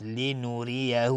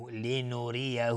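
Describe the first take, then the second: First: لنوریه slow with a light را; thin ra. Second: لنوریه slow, the را kept light; thin ra. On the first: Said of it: "را ترقیق است چون کسره داره". (رای نازک در لنوریه) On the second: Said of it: "را ترقیق است". (لنوریه کشیده با رای مرقق) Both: Shown as a demonstration.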